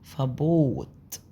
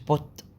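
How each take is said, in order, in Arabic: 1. الحركة ممدودة. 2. الحركة قصيرة. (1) "الحرف المتحرك ده اصلا اللي هو حرف مد" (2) "مش بوت"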